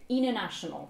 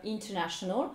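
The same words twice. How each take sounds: First: American 'international' as 'innernational'; T dropped. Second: 'international' with a clear T after N; British "international", T pronounced; T sounded. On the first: Teacher illustrates the rule, international without T. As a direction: let N swallow the T in "international". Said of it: "qui va donner". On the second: Teacher illustrates the rule, international with its T. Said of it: "le T qui n'a pas été prononcé". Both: Shown as a demonstration.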